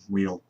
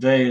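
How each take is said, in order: First: The name is pronounced the English way. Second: The name is pronounced the French way. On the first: "in English it would probably be Weil" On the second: "the correct, correct, correct uh, pronunciation in the French"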